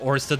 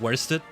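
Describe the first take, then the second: First: The name begins with a plain vowel sound. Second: The name begins with a W sound. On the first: The speaker calls it right. "I think it's meant to be pronounced Orsted" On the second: The speaker calls it wrong. "not Worsted"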